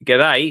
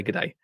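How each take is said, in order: First: Punchy Australian greeting, imitated; Costa's accent. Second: Said in the usual way. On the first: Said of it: "I'll do the accent as well". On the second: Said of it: "He doesn't say".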